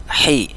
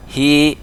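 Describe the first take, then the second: First: "Hi" with a sharp, tight h. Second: "Hi" with a round, open h; plain round breath on "Hi". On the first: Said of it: "di sini agak tajam". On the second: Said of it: "ini agak bulat". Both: Shown as a demonstration.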